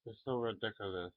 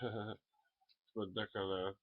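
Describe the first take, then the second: First: Quick, light it's so ridiculous; quick take. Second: Slow, drawn-out it's ridiculous with a laugh; slower take. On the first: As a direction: rattle it off fast. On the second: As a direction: stretch it out slowly. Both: Shown as a demonstration. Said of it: "Does that sound more like".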